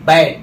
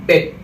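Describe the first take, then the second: First: बैट with an open 'a', as in bat; open A vowel. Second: बेट with a short 'e', as in bet; E vowel. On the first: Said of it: "ऊपर ए है". (बैट में खुला 'ऐ' स्वर, ज़ोर से) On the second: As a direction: keep बेट short and close. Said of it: "नीचे ई है". (बेट में छोटा 'ए' स्वर) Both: Shown as a demonstration.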